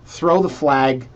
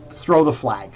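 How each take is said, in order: First: "Throw the flag" drawn out slowly and a little louder. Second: Said in the usual way. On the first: Shown as a demonstration. Host signalling the editor, slowly drawing out "Throw the flag".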